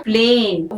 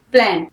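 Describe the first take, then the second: First: प्लेन said with a long ay vowel; teacher stretches the vowel in प्लेन; long vowel plane. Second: प्लान said with a short, open a; teacher says प्लान clipped and short; short vowel plan. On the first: Teacher shows silent e lengthening the vowel. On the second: Teacher contrasts plan with plane for students. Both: Shown as a demonstration. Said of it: "vowel ए का sound long हुआ".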